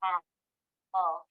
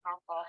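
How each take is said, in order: First: APPLE as two separate parts, a, pull; long gap inside "Apple" between its syllables; split into syllables. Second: Said in the usual way. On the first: Shown as a demonstration. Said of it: "watch me". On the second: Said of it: "Let's blend it back together".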